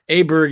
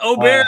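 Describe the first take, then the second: First: The name is said with an anglicized pronunciation. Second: The name is said with its original pronunciation. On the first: "Aberg is the English pronunciation to me" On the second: "is technically correct"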